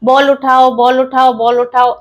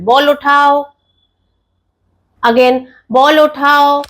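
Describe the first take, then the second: First: The command is repeated quickly with no pause. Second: The command is repeated after a long pause. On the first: The child gets no time to process the instruction. The speaker calls it wrong. "এরকম নয়" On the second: The child gets time to process the instruction. The speaker calls it right. "Five টু six seconds একটু pause দিতে হবে"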